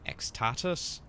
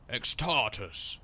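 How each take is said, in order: First: The name is said in a tentative, questioning voice. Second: The name is said in a bold, booming voice. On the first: The speaker calls it wrong. "otherwise they're like X X-Tatus?" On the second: The speaker calls it right. "You have to say it like that"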